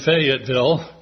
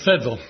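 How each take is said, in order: First: The name is said in full. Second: The name is clipped short.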